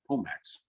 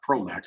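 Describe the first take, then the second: First: No r sound follows the first consonant. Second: An r sound follows the first consonant. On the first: The speaker calls it right. "it's Pomax" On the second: The speaker calls it wrong. "It's not Promax"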